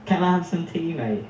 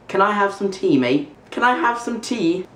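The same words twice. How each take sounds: First: Natural British demonstration; British accent. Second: High-pitched amateur British accent; attempted British accent. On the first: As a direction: model the British accent for a learner. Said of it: "how to say something in a British accent". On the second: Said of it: "I don't think I've ever done an accent before". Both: Shown as a demonstration.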